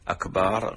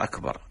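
First: The vowel after the b is drawn out long. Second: The vowel after the b is kept short. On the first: It means the drum. The speaker calls it wrong. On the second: It means greater. The speaker calls it right.

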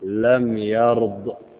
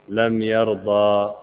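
First: The verb ends on a bare consonant. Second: The verb ends with a vowel sound. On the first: The speaker calls it right. "وأردنا أن نقف وقفا صحيحا نقول لم يرض" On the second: The speaker calls it wrong. "يقول لم يرضى، هذا خطأ"

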